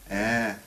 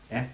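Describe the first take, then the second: First: "E" held long as an open eh, louder and higher; long vowel. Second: "E" cut off short as a quick eh; one abrupt short "E"; short vowel. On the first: Teacher demonstrating closed vowels, long vowel. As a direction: sustain a strong "E". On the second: Teacher demonstrating closed vowels, short vowel. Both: Shown as a demonstration. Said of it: "becomes E".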